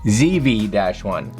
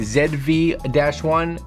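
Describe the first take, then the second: First: The letter Z is said the American way, zee. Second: The letter Z is said the Canadian way, zed.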